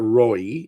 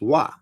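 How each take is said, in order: First: The word is said with an 'oy' sound. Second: The word is said with a 'wa' sound. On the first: The speaker calls it wrong. "which is not Roy" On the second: The speaker calls it right. "it's wa"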